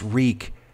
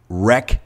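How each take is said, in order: First: The vowel is long, as in 'reek'. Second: The vowel is short, as in 'wreck'. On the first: The speaker calls it right. "No, it's wreak" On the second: The speaker calls it wrong. "when they say wreck havoc"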